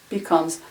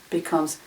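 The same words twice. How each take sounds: No difference in how they are said.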